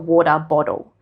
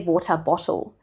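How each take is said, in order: First: The T sounds are softened toward a D. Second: The T sounds are said as clear Ts. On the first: "My T changes into a slight D sound" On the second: "I don't say water bottle"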